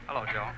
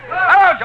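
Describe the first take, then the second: First: It is said flatly, without feeling. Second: It is said with exaggerated feeling.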